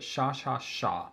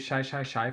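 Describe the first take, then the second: First: The word is said with an 'ah' vowel. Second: The word has the usual 'shy' vowel.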